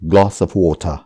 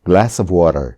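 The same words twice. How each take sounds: First: Both words are said in a British accent. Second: Both words are said in an American accent. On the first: "ब्रिटिशले यसलाई भन्छन्" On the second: "अमेरिकनहरूले यसलाई भन्छन्"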